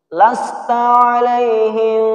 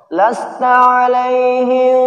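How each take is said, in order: The two takes are said the same way.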